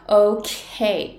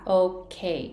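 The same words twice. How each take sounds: First: The K consonant is long and lingers. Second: The K consonant is cut short and quick. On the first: This is how Americans say it. The speaker calls it right. "アメリカ人が発音するとOK ってK っていうこのK のこの子音がすっごい長いんですよ" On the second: This is how many Japanese speakers say it. The speaker calls it wrong. "多くの日本人がOK って発音するんですね"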